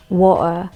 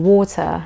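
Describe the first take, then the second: First: "water" with a catch in place of the T; Cockney "water", like "wa'uh"; silent T. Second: "water" with the T pronounced as T; sounded T. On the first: Showing what some Londoners say, T dropped. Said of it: "where the T is silenced". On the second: Teacher showing the standard word, T sounded. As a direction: RP "water", ending in "tuh". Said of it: "instead of saying water". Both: Shown as a demonstration.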